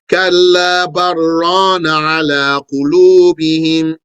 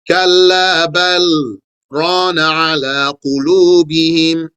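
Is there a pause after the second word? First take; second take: no; yes. First: It is recited with no pause after بل. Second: There is a short pause after بل.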